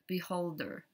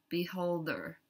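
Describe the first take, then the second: No difference in how they are said.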